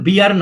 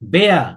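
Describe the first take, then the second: First: The vowel sounds like 'ee'. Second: The vowel sounds like 'eh'. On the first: The speaker calls it wrong. "এটার উচ্চারণ বিয়ার না" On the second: The speaker calls it right. "বে বে not বি"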